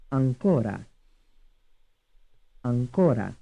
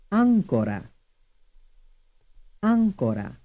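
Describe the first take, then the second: First: "Ancora" as an-CO-ra; stress on second syllable. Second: "Ancora" as AN-co-ra; stress on first syllable. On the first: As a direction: lean on the middle CO of "Ancora". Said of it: "stressed on the second syllable". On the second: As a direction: hit the opening AN of "Ancora". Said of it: "stressed on the first syllable". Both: Shown as a demonstration.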